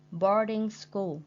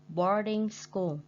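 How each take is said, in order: Both takes have the same delivery.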